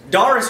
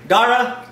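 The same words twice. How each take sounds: First: Said in the usual way. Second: Put-on a botched, hammy Irish accent on the name Dara, pitched up; bad Irish accent. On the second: Host greeting an Irish viewer in a bad mock Irish accent. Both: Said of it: "that was a horrible accent".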